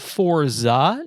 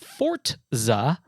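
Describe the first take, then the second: First: The z is said with no t sound. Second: A t sound comes before the z. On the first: The speaker calls it right. "it's called Forza" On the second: The speaker calls it wrong. "not Forza, because there is no T"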